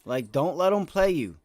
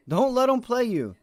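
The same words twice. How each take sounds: First: Said in the usual way. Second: Forceful repeat. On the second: Real, not acted. Repeats the warning louder.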